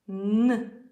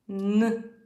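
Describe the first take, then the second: The two takes are said the same way.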